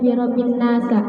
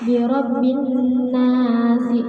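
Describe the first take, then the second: First: The last word ends with an 'a' vowel. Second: The last word ends with an 'i' vowel. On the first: The speaker calls it wrong. "tidak dibaca" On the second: The speaker calls it right. "mudhof ilaih hukumnya jar"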